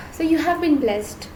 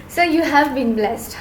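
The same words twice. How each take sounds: The two takes are said the same way.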